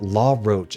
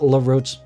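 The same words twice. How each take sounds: First: The first syllable sounds like 'law'. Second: The first syllable does not sound like 'law'. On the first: The speaker calls it right. "as in L A W" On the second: The speaker calls it wrong. "not La Roche, not like that"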